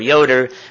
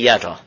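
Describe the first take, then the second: First: The name is said in its English form. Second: The name is said in its dialect form. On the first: "we don't say Jota or Yoder" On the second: "we say Jota to this day"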